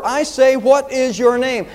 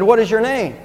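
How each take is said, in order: First: High, slow angry demand; understated roar, each word drawn out; mild enraged roar. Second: Said in the usual way. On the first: A narrator's reading. Emperor demands the soldier's name, mildly roared in rage. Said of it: "with a cry of rage, the emperor roared".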